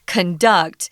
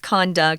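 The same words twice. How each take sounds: First: The stress is on the second syllable. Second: The stress is on the first syllable. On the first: It is used as a verb. "So the emphasis is on duct" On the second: It is used as a noun. "whereas the noun is conduct"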